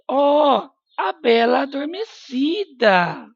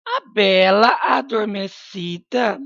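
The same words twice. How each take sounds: First: High, excited exclamation; exclaiming over the sleeping beauty. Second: Said in the usual way. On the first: Shown as a demonstration. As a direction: read it with the exclamation mark in your voice. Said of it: "Exclamação de novo". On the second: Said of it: "Exclamação".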